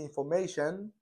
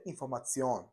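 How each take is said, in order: First: The ending is said like 'shun'. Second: The ending is said like 'tsion'. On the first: This is the English way of saying it. "تو انگلیسی بهش شن میگن" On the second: This is the German way of saying it. "تو آلمانی بهش سیون میگن"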